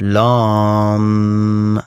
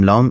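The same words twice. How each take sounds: First: The word is drawn out and held long. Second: The word is said short and quick. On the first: The vibration of the sound can form properly. The speaker calls it right. "یه ذره اه، باید کش بدید تا اون ارتعاشاتش قشنگ شکل بگیره" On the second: The vibration of the sound does not form. The speaker calls it wrong. "اینجوری خیلی به درد نمیخوره"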